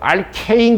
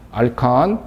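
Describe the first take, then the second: First: The second syllable has a diphthong, like 'kane'. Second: The second syllable has a plain short 'kan'. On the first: It follows the foreign, English-style pronunciation. "교수님은 알케인이라고 그러시던데요" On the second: It is a plain, local-style reading. "그냥 촌스럽게 알칸이라고 읽겠습니다"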